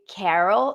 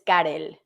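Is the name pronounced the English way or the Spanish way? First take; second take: English; Spanish. First: The name is pronounced with English sounds. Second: The name is pronounced with Spanish sounds. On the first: "In English, I just say Carol" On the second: "my name in Spanish is Karel"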